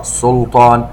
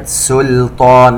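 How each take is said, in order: First: سلطان wrongly said with a heavy first syllable; سلطان with emphatic opening consonants, as an error; mispronunciation demo. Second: سلطان with a light, thin سين and لام; سلطان, first two consonants unemphatic; correct pronunciation. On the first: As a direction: thicken the سين and لام in سلطان. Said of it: "لا نقرأ سلطان". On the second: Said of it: "وننتبه إلى لفظ كلمة سلطان". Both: Shown as a demonstration.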